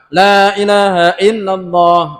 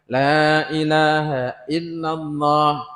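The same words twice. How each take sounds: First: It is recited at a very fast pace. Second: It is recited slowly and relaxed. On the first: "Tambah cepat"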